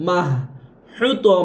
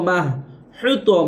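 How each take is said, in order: No difference in how they are said.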